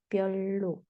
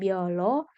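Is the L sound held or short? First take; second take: held; short. First: The L sound is thick and held. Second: The L sound is short and thin. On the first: The speaker calls it right. "tapi L-nya dua" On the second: The speaker calls it wrong. "jadi bukan biolo, L-nya tidak tipis"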